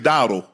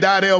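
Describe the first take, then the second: First: The name is said like 'Dowdle'. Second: The name is said like 'Dardell'. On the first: This is what the speaker believes is correct. The speaker calls it right. "I think it's Dowdle" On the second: This is how many people say it. The speaker calls it wrong. "People say"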